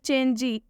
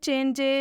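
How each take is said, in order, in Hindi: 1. शब्द के अंत में एक लंबा ee स्वर जोड़ा जाता है। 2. शब्द के अंत में एक छोटा e स्वर जोड़ा जाता है। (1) "या फिर चेंजी" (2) "वो लोग पढ़ देंगे चेंजे"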